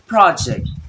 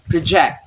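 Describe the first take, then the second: First: The stress is on the first syllable. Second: The stress is on the second syllable. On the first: The word is used as a noun. "When it's noun" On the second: The word is used as a verb.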